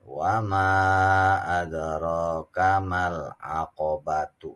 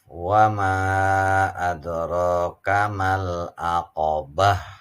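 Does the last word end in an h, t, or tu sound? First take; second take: tu; h. First: The last word ends with a tu sound. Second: The last word ends with an h sound. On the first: The reciter runs on into the next verse. "Itu kalau dibacanya wasol" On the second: The reciter stops after this word. "Waqaf berhenti lebih utama"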